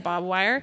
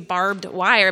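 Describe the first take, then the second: First: The first word is reduced to sound like 'bob'. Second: The first word is said in full as 'barbed'. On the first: The speaker calls it wrong. "but I say bob wire" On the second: The speaker calls it right. "it's supposed to be barbed wire"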